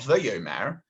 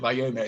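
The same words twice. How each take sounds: First: The first vowel is a short 'e' sound. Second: The first vowel is an open 'a' sound. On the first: It will happen in the future. "if it's with a shavov" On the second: It happened in the past. "with a patach"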